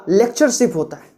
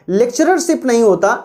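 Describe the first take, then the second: First: लेक्चरशिप said with a single "rer", lek-cher-ship; correct form said. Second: लेक्चररशिप said with the doubled "rer", marked as wrong; wrong form said. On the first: Teacher giving students the correct word, stressed. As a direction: give the right form लेक्चरशिप cleanly, one "rer" only. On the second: Teacher showing students the wrong form, stressed. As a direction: sound out लेक्चररशिप with an extra "rer" syllable to show the mistake. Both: Shown as a demonstration.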